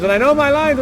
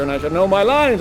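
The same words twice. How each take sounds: First: Know punched high and loud; stress on know. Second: Said in the usual way. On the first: Acted. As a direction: hit the word "know" hard and high. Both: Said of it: "And she goes".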